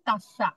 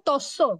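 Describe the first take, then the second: First: The first vowel is an 'a' sound. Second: The first vowel is an 'o' sound.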